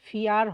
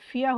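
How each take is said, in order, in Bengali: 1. শব্দটি একটি স্পষ্ট r ধ্বনিতে শেষ হয়। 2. শব্দটি একটি খোলা স্বরধ্বনিতে শেষ হয়, কোনো r নেই। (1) "ফিয়ার হয় নাই" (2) "এখানে কিন্তু ফিয়া হয়েছে"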